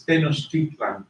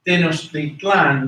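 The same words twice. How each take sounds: First: Tenochtitlan said as in Nahuatl; Nahuatl pronunciation. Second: Tenochtitlan said as in Spanish; Spanish pronunciation. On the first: Teacher contrasting it with Spanish for students, Nahuatl pronunciation of Tenochtitlan. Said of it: "but in Nahuatl". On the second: Teacher repeating the Spanish form for students, Spanish pronunciation of Tenochtitlan. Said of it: "Spanish, it's pronounced". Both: Shown as a demonstration.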